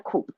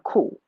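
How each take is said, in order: First: The word ends with a clear p sound. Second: The word ends with no p sound. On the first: The speaker calls it wrong. "Not a coop, right?" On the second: The speaker calls it right. "A cool"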